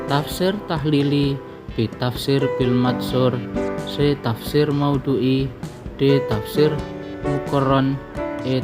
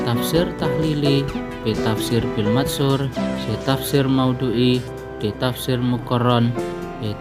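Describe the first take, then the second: Both takes have the same delivery.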